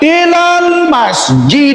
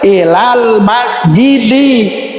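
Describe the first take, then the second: First: The last word ends on a bare consonant. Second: The last word ends with an added i vowel. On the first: The speaker calls it wrong. "Tidak boleh ilal masjid, tidak bisa" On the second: The speaker calls it right. "harus ilal masjidi"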